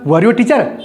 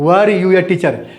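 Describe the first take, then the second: First: It is said with a questioning tune. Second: It is said with a statement tune. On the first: It asks something. The speaker calls it right. "Interrogative accent में बोलना है आपको। कैसे बोला?" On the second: It sounds like an answer being given. The speaker calls it wrong. "ऐसे नहीं बोलेंगे"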